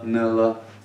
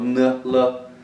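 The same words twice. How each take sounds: First: The sounds are said lightly and naturally. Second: The sounds are overdone and drawn out. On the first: "that would be fine" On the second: "obviously, I'm exaggerating"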